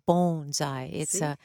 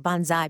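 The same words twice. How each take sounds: First: The first vowel is a long O. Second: The first vowel is not a long O. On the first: The speaker calls it right. "It's a long O" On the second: The speaker calls it wrong. "that's what the airplane did in World War II"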